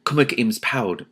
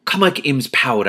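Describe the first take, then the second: First: Said in the usual way. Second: Slow, louder greeting; calling out. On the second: A narrator's reading. Ella greeting the elf, called out slowly. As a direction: call it across the trees, slowly. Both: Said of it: "I called".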